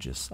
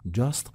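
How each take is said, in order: First: The word ends without a t sound. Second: The word ends with a clear t sound. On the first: "ولی تو صحبت کردن میگن جس" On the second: "نه درسته"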